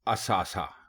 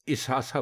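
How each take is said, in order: First: The word begins with an 'a' vowel. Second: The word begins with an 'i' vowel. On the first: The speaker calls it right. "दुरुस्त लफ्ज है असासा" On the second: The speaker calls it wrong. "बहुत सारे लोग इसासा बोलते हैं"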